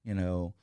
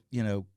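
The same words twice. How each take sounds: The two takes are said the same way.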